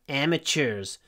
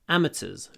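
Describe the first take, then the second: First: American accent, with a 'ch' sound in the middle. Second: British accent, without the 'ch' sound. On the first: "Americans say amateurs, so they say ch" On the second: "In British English"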